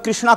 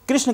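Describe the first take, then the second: First: The name ends with an added long vowel. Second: The name ends without a final long vowel. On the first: The speaker calls it wrong. "कृष्णा कहते हो ... यह सब गलत धारणाएं हैं" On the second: The speaker calls it right. "कृष्ण की जगह पर"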